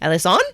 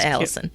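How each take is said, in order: First: The name is said with Spanish-style pronunciation. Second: The name is said with American English pronunciation. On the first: This is how people in Spain say the name. "They say Alison" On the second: This is how the family says the name at home. "instead of Allison"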